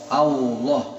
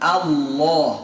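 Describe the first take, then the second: First: A w-like lip-rounded sound is added inside. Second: It goes straight to the l without rounding. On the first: The speaker calls it wrong. "Banyak yang mengucapin Allah, Allah. Salah" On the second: The speaker calls it right. "Langsung lam"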